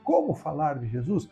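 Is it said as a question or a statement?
question. It is said as a question.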